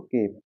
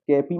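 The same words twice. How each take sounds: First: केप ending on p; one syllable, no vowel after p in केप; silent e. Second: केपी ending in an "ee" vowel; final e sounded. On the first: Teacher showing the correct reading, silent e in केप. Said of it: "यहाँ पे ई silent हो जाएगा". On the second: Teacher warning learners off this reading, final e sounded in केपी. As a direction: say two syllables, केपी. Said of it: "केपी मत पढ़िएगा इसको". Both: Shown as a demonstration.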